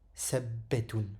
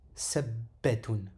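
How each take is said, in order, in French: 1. Le son b est tenu et doublé. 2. Le son b est tenu et doublé.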